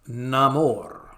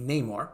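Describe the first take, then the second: First: The name is said the Latin way. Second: The name is said the English way. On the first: This fits the character's new Aztec and Mayan origins. "a new, more Latin pronunciation" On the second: This is how the name was said in the original comics. "like the original comics"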